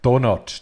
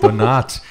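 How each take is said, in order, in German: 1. Die Betonung liegt auf der ersten Silbe. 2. Die Betonung liegt auf der zweiten Silbe.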